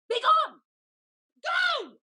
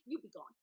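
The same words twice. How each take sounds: First: Higher, louder enraged command; furious shout. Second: Softer, lower icy dismissal; cold low dismissal. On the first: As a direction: explode at her. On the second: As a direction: hiss her away. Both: Acted. Lady dismissing her servant.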